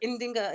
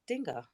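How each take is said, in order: First: The name starts with an extra 'in' sound. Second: The name starts directly with the 'ding' sound. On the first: The speaker calls it wrong. "I used to always go Indinga" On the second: The speaker calls it right. "It's actually just Dinga"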